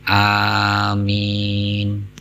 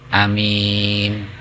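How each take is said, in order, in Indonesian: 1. Vokal pertama panjang. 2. Vokal pertama pendek. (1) "Padahal yang betul amin" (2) "Di Mekah loh itu"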